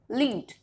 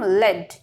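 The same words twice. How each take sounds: First: The vowel is a long ee sound. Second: The vowel is a short e sound. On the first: To guide or conduct. "Lead means to guide or to conduct" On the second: A chemical element. "if we'll change the pronunciation, it will become lead"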